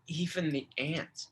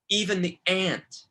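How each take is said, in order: First: Softer, choked "Even the ant." with stress on "Even". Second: "even the ant." pressed out louder, stressing "even"; emphatic plea. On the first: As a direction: say "Even the ant." as if the throat tightens. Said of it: "he gets choked up as he says it". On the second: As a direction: lean hard on "even" as the quote peaks. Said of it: "where he says". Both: Retold or imitated.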